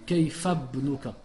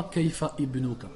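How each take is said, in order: First: Kaifa Ibnuka linked as Kaifabnuka; correct liaison. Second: Kaifa Ibnuka with a stop before Ibnuka; wrong hamza. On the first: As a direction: run Kaifa Ibnuka together. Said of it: "Je dis". (Kaifa Ibnuka lié) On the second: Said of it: "je dis pas". (Kaifa Ibnuka avec hamza fautive) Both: Shown as a demonstration.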